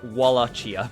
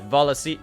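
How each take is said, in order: First: The name begins with a W sound. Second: The name begins with a V sound. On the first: "if you want to be a pleb" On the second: "I was just pronouncing it the way that the game pronounced it... the V instead of the W"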